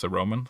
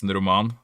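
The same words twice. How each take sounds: First: "a Roman" in plain English, stress on the first syllable, "ROH-man"; "Roman" said the English way, like the ancient Romans; anglicized "a Roman" with the first syllable stressed; English accent. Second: "en roman" in Norwegian, "roman" with a rolled r and stress on the last syllable; "en roman" pronounced as in Norwegian; Norwegian pronunciation. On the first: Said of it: "if you try and say that in an English accent". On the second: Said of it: "And in Norwegian". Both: Shown as a demonstration.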